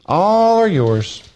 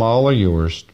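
First: "All are yours" drawn out high and slow; emphatic proclamation. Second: Said in the usual way. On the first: Acted. Preacher proclaiming "All are yours" to the church, high and slow.

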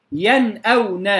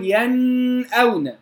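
First: ينأون slowly, crisp noon without held hum, then hamza; clear izhar. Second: ينأون with the noon hummed long before the hamza; over-held ghunna. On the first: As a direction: give ينأون a clean still noon before the hamza. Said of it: "اقتصرنا على الغنة فقط". (إظهار النون في ينأون بلا غنة زائدة) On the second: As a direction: wrongly drag the nasal noon in ينأون. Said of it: "لم أقل". (مد غنة النون خطأً في ينأون) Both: Shown as a demonstration.

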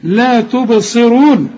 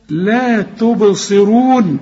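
First: Slow لا تبصرون, ص carrying a clear kasra; كسر الصاد في تبصرون; kasra on sad. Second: Very slow لا تبصرون with a thick ص; تفخيم الصاد في تبصرون; heavy sad. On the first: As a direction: say تبصرون with ص then a short i. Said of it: "الصاد مكسورة يا راجل". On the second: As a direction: draw out تبصرون, the ص dark. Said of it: "الصاد آخر درجات التفخيم". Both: Shown as a demonstration.

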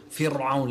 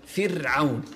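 First: فرعون with a thick, dark r; wrong heavy Ra. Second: فرعون with a thin, light r; correct light Ra. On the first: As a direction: make the r in فرعون too heavy. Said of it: "في ناس تقول". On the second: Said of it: "رقق الراء". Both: Shown as a demonstration.

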